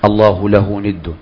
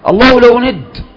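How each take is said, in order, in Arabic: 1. تُقال على سبيل الإخبار المجرد البسيط. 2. تُقال بنبرة تعجبية مندهشة. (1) "طيب فرغ بقى" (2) "عجبه"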